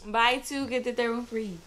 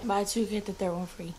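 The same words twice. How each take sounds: First: It is said with more enthusiasm. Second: It is said flatly, without much enthusiasm.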